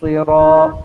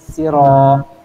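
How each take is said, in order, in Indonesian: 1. Huruf pertama itu s yang tebal dan berat. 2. Huruf pertama itu s yang tipis dan ringan. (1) "kena baca iaitu dengan cara ter, tebal" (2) "biasa jadi huruf sin"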